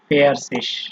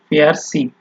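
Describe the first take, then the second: First: The word ends with a soft hissing sound. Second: The word ends with a hard k sound. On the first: "যদি স ধরেন আপনি তাহলে এটা বা বলা যায়" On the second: "গ উচ্চারণ করে বলতে পারেন"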